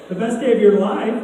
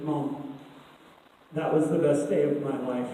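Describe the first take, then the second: First: Lightly imitated astonished mom; surprised. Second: Low, soft imitation of a daughter; quiet confiding. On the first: Mom questioning her daughter's best day, surprised. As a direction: echo it back as a puzzled, rising question. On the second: Daughter telling mom about her day, quietly confiding. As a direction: drop the voice and let it out softly, pausing after Mom.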